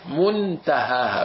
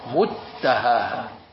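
First: The n is pronounced clearly and separately. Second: The n is fully merged into the following t. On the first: "وإذا بدي إظهر بقول منتهاها منتهاها بدي إفصل" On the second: "لو بدي إدغمة بقول متهاها متهاها هذا الإدغام"

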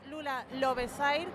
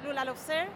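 First: The name is read with Spanish-style sounds. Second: The name is read with English-style sounds. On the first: The speaker calls it wrong. "dicho mal dicho" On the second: The speaker calls it right. "en verdad es Lula Lovesair, la pronunciación"

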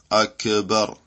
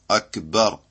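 First: The k sound is released with a bouncing echo. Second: The k sound is held without any bounce. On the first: The speaker calls it wrong. "C'est pas Akbar" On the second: The speaker calls it right. "Il n'y a pas de qalqala sur la kaf"

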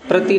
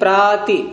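First: The first vowel is short. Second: The first vowel is long and open. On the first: The speaker calls it wrong. "प्रति नहीं" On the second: The speaker calls it right.

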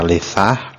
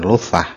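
First: The first vowel is i. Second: The first vowel is u. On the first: "bisa dibaca lisah" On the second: "dan lusah, bisa tiga harokat"

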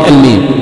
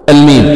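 The two takes are said the same way.

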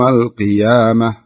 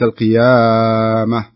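First: The long vowel is held only two beats. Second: The long vowel is stretched out extra long. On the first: The speaker calls it right. "هذا مد طبيعي يوم القيامة" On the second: The speaker calls it wrong. "وليس القيامة"

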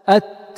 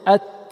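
First: The air after the t flows out freely. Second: The air after the t flows out freely.

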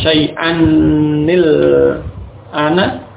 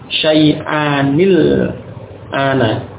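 First: The n sound is doubled and held longer. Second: The n sound is short and single. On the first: The speaker calls it wrong. "bukan syai'anil ana. Nunnya tasydid semacam itu tidak demikian" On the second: The speaker calls it right. "Dan nunnya tidak tasydid ya"

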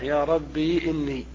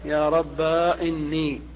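First: The word ends in a long ī vowel. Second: The word ends in a long a vowel. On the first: "إثبات الياء ساكنة" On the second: "قلبها ألفا"

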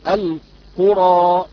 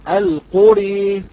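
First: The final vowel is an open a sound. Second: The final vowel leans fully toward e. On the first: "هذا هو الفتح" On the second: "الإمالة الكبرى التي يقرأها حمزة والكسائي"

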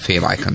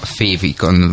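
First: The word is pronounced the English way. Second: The word is pronounced the Hungarian way. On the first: The speaker calls it wrong. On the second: The speaker calls it right.

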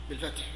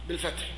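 The two takes are said the same way.

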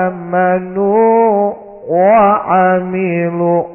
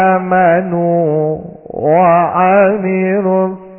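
The two takes are said the same way.

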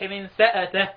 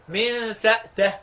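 First: The glottal stop is followed by a short a vowel. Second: The glottal stop is closed with no vowel after it. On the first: "بالتحريك وهي الفتح" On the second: "من سأته سكون الهمزة"

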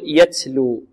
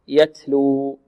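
First: The t is over-breathed with an s-like hiss. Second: The t has a light flow of breath. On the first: The speaker calls it wrong. "لا نبالغ في الهمس أو نشرب التاء هنا رائحة السين أو صوت السين" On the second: The speaker calls it right. "بل همس مع جريان النفس"

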